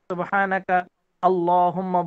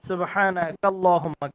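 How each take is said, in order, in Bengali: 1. আলিফ উচ্চারণ করা হয়, তাই শব্দ দুটি আলাদা থাকে। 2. আলিফ বাদ পড়ে, তাই শব্দ দুটি জুড়ে একটি হয়ে যায়। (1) "এটা কিন্তু মানে কেমন যেন অস্বস্তিকর" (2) "সুবহানাকা আল্লাহুম্মা না বলে আমরা কি বলি, সুবহানাকাল্লাহুম্মা বলি"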